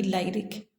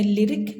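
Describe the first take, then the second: First: लाइरिक with a long I, as LIE-rik; long I, wrong reading. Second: लिरिक with a short i in the first syllable; short vowel. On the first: Teacher showing the mistake to avoid, लाइरिक with long I. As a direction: make the first syllable of लाइरिक rhyme with "lie". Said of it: "long आई ना करते हुए". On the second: Teacher giving the right reading, लिरिक with short first i. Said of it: "हम short करते हैं". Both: Shown as a demonstration.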